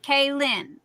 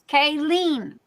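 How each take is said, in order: First: The second syllable sounds like 'lin'. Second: The second syllable sounds like 'lean'. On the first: The speaker calls it wrong. "not Kaylin" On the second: The speaker calls it right. "Lean. There's no A"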